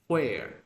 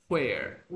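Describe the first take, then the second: The two takes are said the same way.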